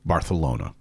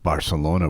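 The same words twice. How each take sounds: First: The c sounds like a lisped th. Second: The c sounds like a plain s.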